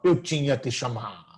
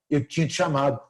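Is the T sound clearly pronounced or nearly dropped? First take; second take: clear; dropped. First: Every T sound is pronounced clearly and carefully. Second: The T sound is barely pronounced at all. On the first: The speaker calls it wrong. "a gente não fala eu tinha te chamado" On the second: The speaker calls it right. "O T nem sai direito"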